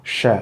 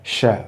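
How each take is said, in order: First: The syllable has a weak, reduced vowel. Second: The same.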